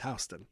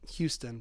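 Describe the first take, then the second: First: The name is pronounced the New York way. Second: The name is pronounced the Texas way. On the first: This is how the street in New York is named. "but in New York, it's Houston" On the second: This is how the city in Texas is named. "If you're from Texas, you'd call it Houston"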